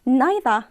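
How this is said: It is said in a British accent.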